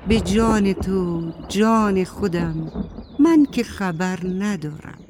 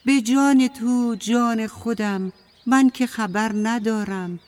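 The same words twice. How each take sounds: First: A hint of an unhurried cloud swearing innocence; dark cloud character. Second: Lightly voiced crow, somewhat higher; a hint of a higher-pitched crow pleading innocence; crow character. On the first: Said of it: "ابر سیاه گفت". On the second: Crow swears innocence to the apple tree, lightly voiced higher. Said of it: "کلاغه گفت". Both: A narrator's reading.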